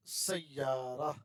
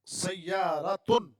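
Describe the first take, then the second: First: سیارہ said slowly, ending on a bare a with the ta dropped; pausal form. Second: سیارتن said slowly with a clear t and final tun; full ending. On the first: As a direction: stop on سیارہ, no final tun. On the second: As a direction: sound out every syllable of سیارتن. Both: Shown as a demonstration. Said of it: "اصل میں ہوتا ہے سیارتن".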